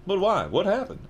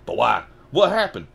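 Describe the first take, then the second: First: High-pitched, pleading questions; urgent. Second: Loud urgent questions, jumping higher. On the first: Harry asking about his parents, high and urgent. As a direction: ask urgently, higher rather than loud. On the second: Harry asking about his parents, loud and urgent. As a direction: demand an answer at once. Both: Acted. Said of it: "asked Harry urgently".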